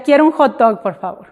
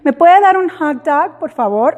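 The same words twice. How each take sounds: First: "hot dog" said the Mexican way, like "jot dok"; Spanish hot dog. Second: Put-on higher voice, "hot dog" in an American accent; English-accented hot dog. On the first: Retold or imitated. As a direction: order a "hot dog" the way a Mexican customer would. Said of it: "Entonces le decía". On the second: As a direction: order "hot dog" with the American sound, as you wouldn't. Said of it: "no le decía".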